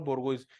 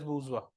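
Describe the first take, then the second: First: It has a hard g and ends in iz. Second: It has a zh sound and ends in wa. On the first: The speaker calls it wrong. "But it is not बोर्गोइज" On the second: The speaker calls it right. "It is बूजवा"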